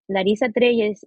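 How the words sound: The name is said with Spanish pronunciation. She is speaking Spanish. "if I'm speaking Spanish"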